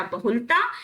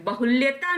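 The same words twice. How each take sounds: First: बहुलता with plain "l-taa"; no y glide in बहुलता; slow "ba-hul-taa" for बहुलता; correct form. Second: बहुल्यता with "lya" before "taa"; "ba-hul-ya-taa" for बहुल्यता; wrong blended form. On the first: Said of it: "बहुलता या बाहुल्य होता है". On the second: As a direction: put a y glide in बहुल्यता. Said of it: "बहुल्यता नहीं होता". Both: Shown as a demonstration.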